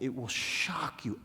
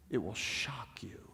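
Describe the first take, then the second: First: Said in the usual way. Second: Slow, soft whisper. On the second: Shown as a demonstration. Speaker telling the audience about the homework, whispered. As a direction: lean in and whisper the promise. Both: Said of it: "repeated for effect".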